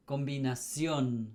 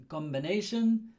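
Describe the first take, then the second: First: "combinación" as kom-bee-nah-SYON, falling; emphasis at the end. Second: "combination" as kom-buh-NAY-shun, raised; English pronunciation. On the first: Teacher contrasts with English, Spanish end stress on "combinación". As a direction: stress the final syllable of "combinación". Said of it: "The emphasis at the end". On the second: Teacher repeats the English for contrast, raised English "combination". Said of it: "in Spanish, how is it?". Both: Shown as a demonstration.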